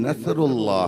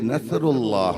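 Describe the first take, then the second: First: The middle consonant is a 'th' sound. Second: The same.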